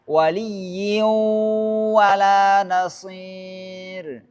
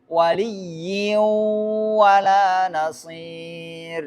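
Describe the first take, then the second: Both takes have the same delivery.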